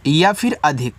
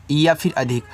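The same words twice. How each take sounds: The two takes are said the same way.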